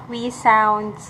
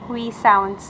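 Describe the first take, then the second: The two takes are said the same way.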